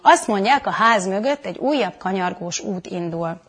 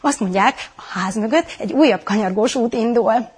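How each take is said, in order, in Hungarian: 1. Lapos, semleges hangszínnel mondja. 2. Izgatott, lelkes hangszínnel mondja. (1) "Tök semleges mondat" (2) "Hogy izgatott vagyok, hogy lelkes vagyok"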